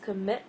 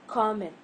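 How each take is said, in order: First: The stress is on the second syllable. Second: The stress is on the first syllable. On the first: The speaker calls it right. "I'm stressing the second part" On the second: The speaker calls it wrong. "not commit"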